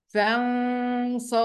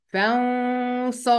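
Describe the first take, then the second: Both takes have the same delivery.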